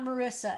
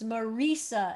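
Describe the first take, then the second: First: The ending does not sound like Risa. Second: The ending sounds like the name Risa. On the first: The speaker calls it wrong. "It's not Marissa" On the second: The speaker calls it right. "take the name Risa, and it's Marissa"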